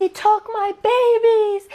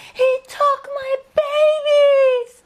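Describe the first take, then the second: First: High, slow anguished scream, much louder. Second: Even higher, slower wailing scream, much louder, breaking into a cry. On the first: Grieving mother screaming at old neighbours in McDonald's, anguished scream. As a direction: scream it out in grief, stretched and high. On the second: Grieving mother screaming at old neighbours in McDonald's, wailing sobbing scream. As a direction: let the scream collapse into sobbing. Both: Retold or imitated. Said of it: "and screamed".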